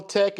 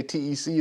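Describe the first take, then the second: First: "Tech" spoken as a single word, rhyming with deck; said as one word. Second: "T E C" spelled letter by letter, tee ee see. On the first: Host offering viewers a nickname, "Tech" as one word. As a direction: say "Tech" as one short word, not spelled out. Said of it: "if you wanna say Tech". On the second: Host offering viewers the channel name, "T E C" spelled out letter by letter. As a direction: spell out "T E C" as three separate letters. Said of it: "If you wanna say T E C". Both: Shown as a demonstration.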